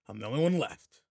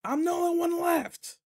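First: Said in the usual way. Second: High, loud, slow call across the field; drawn-out shout to a far-off teacher. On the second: Acted. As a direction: yell it so the distant teacher hears. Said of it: "What was that, Teach?".

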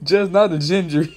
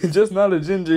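First: Laughs through the words; can't hold back the laugh. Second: Said in the usual way. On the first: Real, not acted. To the stream about a viewer, laughing.

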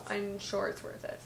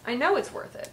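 First: Said in the usual way. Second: Know punched higher in pitch; stress on know. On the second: Real, not acted. Correcting herself about the candle, stress on know. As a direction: lean hard on know with a raised pitch.

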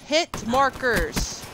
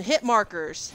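First: Drawn out slowly. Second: Said in the usual way. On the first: Real, not acted. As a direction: hit markers stretched very slow.

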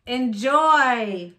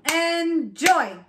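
First: Said in the usual way. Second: "Enjoy" split as en, joy with a gap; chopped into syllables. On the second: Shown as a demonstration. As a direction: chop "Enjoy" into two beats. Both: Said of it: "chop it out".

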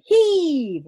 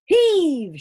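First: Big, high shouted heave; the same full-voiced heave shout. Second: Big, high shouted heave. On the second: Acted. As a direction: heave him out with a full-voiced shout. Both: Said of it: "shouted Father".

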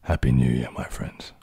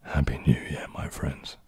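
First: Low and lower, with a louder, fuller start that fades to a whisper; a second try at a voiced deep greeting; deep, resonant New Year greeting. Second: Lower, breathy near-whisper that sinks almost out of hearing; deep, husky whisper of a greeting; really deep voice. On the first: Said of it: "I think that was deeper than is audible". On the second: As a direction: go so deep it is barely audible. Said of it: "Can you say with a really deep voice". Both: Shown as a demonstration.

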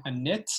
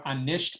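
First: ANIT with no sh sound; shortened form. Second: Said in the usual way. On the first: Shown as a demonstration. Teacher showing forms of nisht, ANIT without sh. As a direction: drop the sh and end "anit" on -it. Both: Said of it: "anisht becoming anit".

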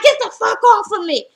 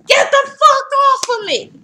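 First: Higher, louder shout at the guard; mock yell. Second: Much higher, louder scream; bigger mock yell. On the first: Drita yells at the security guard pulling her, a loud mock shout. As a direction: shake off the guard. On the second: Drita screams at the guard a second time, even higher and louder. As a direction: scream it at full tilt. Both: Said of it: "She's like".

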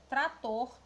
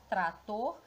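First: Said in the usual way. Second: "trator" slowly in two beats, tra-tor; sílaba por sílaba. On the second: Shown as a demonstration. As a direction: separate the two syllables of "trator". ("trator" devagar, separado em sílabas: tra-tor) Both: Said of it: "Já separando a sílaba".

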